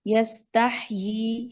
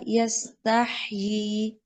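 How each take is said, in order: First: यस्ताही said slowly again, recited; slow recitation. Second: यस्ताही very slow, recited, final ही held; slow Quranic recitation. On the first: Teacher repeating the example word slowly. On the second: Teacher reciting यस्ताही slowly for the pausing rule. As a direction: draw out यस्ताही like careful tajweed recitation. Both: Shown as a demonstration. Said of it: "यस्ताही ही पढ़ेंगे".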